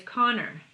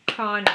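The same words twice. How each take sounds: First: Said in the usual way. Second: "Connor" split into two even beats; "Connor" broken in two for counting; clapped syllables. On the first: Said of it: "What if your name is". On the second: Shown as a demonstration. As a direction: punch both beats of "Connor". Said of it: "Two claps, two syllables".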